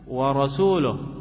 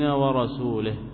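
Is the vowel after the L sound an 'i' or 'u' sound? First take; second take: u; i. First: The vowel after the L is a u sound. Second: The vowel after the L is an i sound. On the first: The messenger also disowns the polytheists. The speaker calls it right. "هي الآية صوابها ماذا؟" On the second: The messenger is among those God disowns. The speaker calls it wrong. "بدل ما يضم اللام كسر اللام فتغير المعنى"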